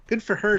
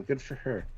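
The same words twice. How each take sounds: First: Higher, louder cheery repeat; mock cheer. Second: Said in the usual way. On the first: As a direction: echo it like a proud cheer. Repeats the comment with delight.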